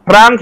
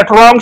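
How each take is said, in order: First: ট্রাং with an open "aa" vowel, traang; standard pronunciation. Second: ট্রং with a rounded "o" in place of "aa"; local mispronunciation. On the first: Shown as a demonstration. Showing the sound Odia Boroks cannot pronounce, ট্রাং with open "aa". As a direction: say ট্রাং with a clear long "aa". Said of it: "আ, উচ্চারণ খাই মাইয়া". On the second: Retold or imitated. Showing how Borok speakers say the word, ট্রং with rounded "o". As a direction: say ট্রং as trong, lips rounded. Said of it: "সি হিনো".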